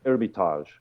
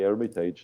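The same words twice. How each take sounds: First: The word is pronounced in a French-like way. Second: The word is pronounced in an English way. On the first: "it's like a a bit the French uh, uh, pronunciation of it" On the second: "That's fine too"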